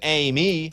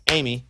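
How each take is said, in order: First: The name is said as two syllables. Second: The name is squeezed into one syllable. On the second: "it's one"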